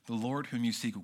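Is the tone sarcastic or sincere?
sincere. It is read in a plain, sincere tone. The words are meant literally.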